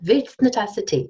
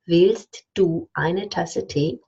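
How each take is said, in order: First: Du merges into the t and eine becomes ne. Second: Every word is said fully and carefully. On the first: The speaker calls it right. "Or I even say willst eine Tasse Tee" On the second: The speaker calls it wrong. "I don't say that ever"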